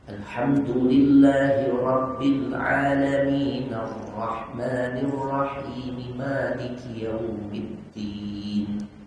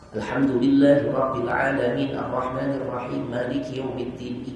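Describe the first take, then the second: First: Verse endings carry a vowel, linking smoothly. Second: Verse endings stay voiceless-stopped, yet run together. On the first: The speaker calls it right. "Ujung-ujung ayatnya jadi hidup" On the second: The speaker calls it wrong. "Ujungnya tetap dimatiin, cuma nyambung-nyambung satu nafas"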